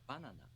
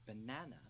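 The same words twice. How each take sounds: First: It is said with a Japanese accent. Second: It is said with an English accent.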